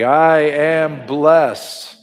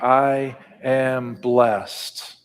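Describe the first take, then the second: First: It is said firmly with strong conviction. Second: It is said in a normal conversational voice. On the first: "with conviction" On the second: "in a everyday language, talking across the table voice"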